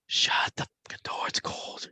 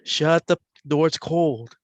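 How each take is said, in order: First: Soft unvoiced whisper. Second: Jim's voice. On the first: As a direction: breathe it like a ghostly voice. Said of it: "you hear a whisper now". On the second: Retold or imitated. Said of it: "before Jim's voice comes on".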